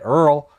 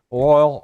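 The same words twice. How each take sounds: First: "Earl" for oil, bayou style; bayou pronunciation of oil. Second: Said in the usual way. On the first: Shown as a demonstration. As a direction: say oil as "Earl", one syllable rhyming with girl. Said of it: "or as we say it, Earl, 'cause that's how they say it down there in the bayou". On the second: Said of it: "or as we say it".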